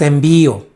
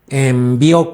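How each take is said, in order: First: The stress falls on the middle syllable. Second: The stress falls on the last syllable. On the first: The speaker calls it wrong. "No es envío" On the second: The speaker calls it right. "con acento en la O"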